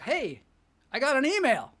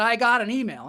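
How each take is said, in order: First: Pitched-up, delighted little announcement; excited novelty. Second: Said in the usual way. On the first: Acted. Comedian acting out getting an early email, excited. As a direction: act out the thrill of new mail. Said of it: "thing where you're like".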